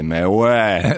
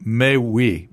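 First: Swiss French "Mais ouais" with a rise at the end; rising "Mais ouais" the way they say it in Geneva; Swiss French accent. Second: "mais oui" said the Parisian way, falling at the end; a plain falling "mais oui" in French. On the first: Retold or imitated. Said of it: "And they say". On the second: Shown as a demonstration. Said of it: "mais ouais is the French".

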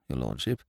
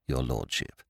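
First: Very soft deferential "your lordship"; hushed genteel host. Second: Very soft deferential "your" leaning down; hushed genteel host. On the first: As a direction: murmur "lordship" with a gentle rise. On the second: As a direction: lay weight on "your", falling gently. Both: Acted. Butler addresses the lord.

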